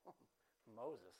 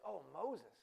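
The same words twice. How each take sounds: First: "Oh, Moses" dropped low and soft on a falling tune; lower, softer Oh, Moses. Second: Said in the usual way. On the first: Shown as a demonstration. Preacher showing his own take to the church: low, soft, falling. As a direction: let "Moses" sink low and quiet, falling away. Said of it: "And I say it like". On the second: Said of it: "you say it like this".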